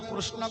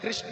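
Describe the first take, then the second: First: The name is said with an Odia pronunciation. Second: The name is said with a Hindi pronunciation. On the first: "Orissa में उसको कृष्ण कहते हैं" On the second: "Hindi में थोड़ा सा अलग हो जाता है"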